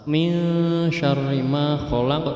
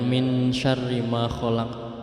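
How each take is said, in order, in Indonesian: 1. Huruf n di min dibaca samar dan sengau. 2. Huruf n di min dibaca dengan jelas. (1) "non mati itu dibaca samar-samar"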